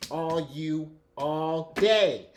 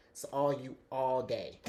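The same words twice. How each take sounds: First: Slow, stretched, loud and forceful; aggressive shout. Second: Said in the usual way. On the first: Real, not acted. Reader telling the querent it is all theirs, loud and aggressive. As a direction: hammer each word out at the listener. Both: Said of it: "Sorry, that was aggressive".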